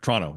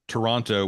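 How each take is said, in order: First: It is said with only two syllables. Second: It is said with three full syllables. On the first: The speaker is local. The speaker calls it right. "Tonto with an R. ... It's two syllables" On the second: The speaker is not from the city. The speaker calls it wrong. "very pronounced way, Toronto with three syllables"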